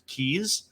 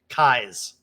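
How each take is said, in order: First: The vowel sounds like the word 'keys'. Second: The vowel sounds like the word 'eyes'. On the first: The speaker calls it wrong. "that's very easily mispronounced keys" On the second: The speaker calls it right. "it's like your eyes with a K in front of it"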